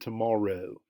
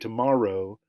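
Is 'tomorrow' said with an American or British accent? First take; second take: British; American. First: The word is said with a British accent. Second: The word is said with an American accent. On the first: "he said tomorrow. So it was a, a, a British pronunciation" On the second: "he didn't say tomorrow"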